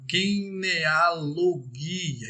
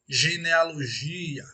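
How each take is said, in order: First: It begins with a hard g sound. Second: It begins with a soft zh sound. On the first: The speaker calls it right. "em grego, seria" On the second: The speaker calls it wrong. "aquele som arrastado como se lêssemos"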